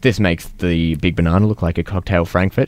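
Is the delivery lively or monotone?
monotone. It is said in a flat monotone.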